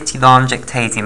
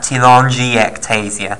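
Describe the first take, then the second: First: The 'i' after the 'g' is silent. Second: The 'i' after the 'g' is pronounced. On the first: "I prefer to leave the I silent" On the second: "some people pronounce that telangiectasia"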